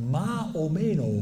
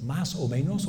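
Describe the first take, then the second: First: Dropped final s in Andalusian "más o menos"; drawn-out Andalusian "más o menos", s sounds swallowed; Andalusian accent. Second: Said in the usual way. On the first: Retold or imitated. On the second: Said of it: "¿cómo es correcto en español?".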